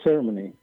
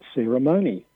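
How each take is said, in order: First: It is said the Australian way, with reduced syllables. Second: It is said the American way, with a full 'mo'. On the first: This is the traditional local form. "the word we used to call ceremony" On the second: This is the imported form many locals adopt. "in the American pronunciation, which many people in Australia adopt"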